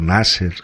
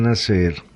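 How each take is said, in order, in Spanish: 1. El nombre "Nasser" se pronuncia con pronunciación inglesa. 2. El nombre "Nasser" se pronuncia con pronunciación española.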